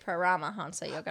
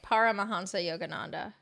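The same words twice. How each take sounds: First: The stress falls on a later syllable, not par. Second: The stress falls on the first syllable, par. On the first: "You say Paramahansa Yogananda" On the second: "I guess I say it with par. I say Paramahansa Yogananda"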